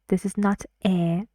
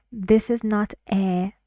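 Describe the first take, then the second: No difference in how they are said.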